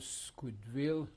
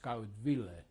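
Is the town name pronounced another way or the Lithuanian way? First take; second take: another way; Lithuanian. First: The name is said in its non-Lithuanian form. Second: The name is said in its Lithuanian form.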